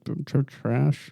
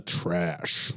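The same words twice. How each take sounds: First: Stammered, unsure verdict; tentative, halting delivery; hesitant. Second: Drawn-out, deliberate verdict; firm, unhesitating delivery; confident. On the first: Real, not acted. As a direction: stumble reluctantly into the word. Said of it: "say it with confidence". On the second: Shown as a demonstration. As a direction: say it with confidence, on demand. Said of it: "Say it with confidence".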